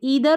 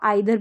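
First: The first vowel sounds like 'ee'. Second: The first vowel sounds like 'eye'. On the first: "ई आई का उच्चारण भी ई है" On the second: "इसको आइदर भी pronounce किया जाता है"

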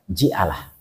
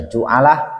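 First: The first syllable has the vowel i. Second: The first syllable has the vowel u.

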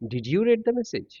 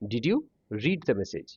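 First: The verb read is pronounced like red. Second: The verb read is pronounced like reed. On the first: The verb is given its past tense form. The speaker calls it wrong. "Sorry, ভুল বলছি একটু।" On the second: The verb is given its present tense form. The speaker calls it right. "সেহেতু main verb আমাদের present ফর্মে থাকবে।"

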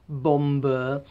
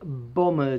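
First: The b in bomber is pronounced. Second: The b in bomber is silent. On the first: The speaker calls it wrong. "and not bomber, as many people abroad call them" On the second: The speaker calls it right. "any word that ends in MB, you don't pronounce the B"

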